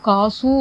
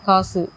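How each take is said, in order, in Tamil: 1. இறுதி உயிரெழுத்து நீண்டு ஒலிக்கிறது. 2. இறுதி உயிரெழுத்து குறுகி ஒலிக்கிறது. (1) "அப்படின்னு இழுக்கிறதுல" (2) "அப்படி ஷார்ட்டாக தான் வரும்"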